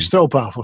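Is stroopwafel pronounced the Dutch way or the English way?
Dutch. The word is pronounced with Dutch sounds. "in Holland we say stroopwafel"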